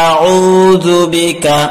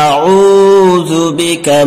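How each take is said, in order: Both takes have the same delivery.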